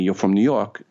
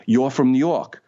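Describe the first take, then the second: First: Said in the usual way. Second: Put-on New York accent, pitched higher; mock New York accent, higher than usual. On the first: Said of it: "people didn't say to me". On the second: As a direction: imitate a thick New Yorker saying it. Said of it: "They said, "You're from New York".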